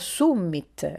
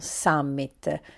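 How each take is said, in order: First: It is pronounced with Latin-style vowels. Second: It is pronounced with English-style vowels. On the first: The speaker calls it right. "Si pronuncia summit" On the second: The speaker calls it wrong. "non summit"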